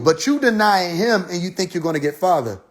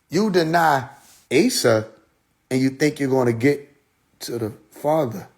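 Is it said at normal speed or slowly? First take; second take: normal speed; slowly. First: It is said at normal speed. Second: It is said slowly.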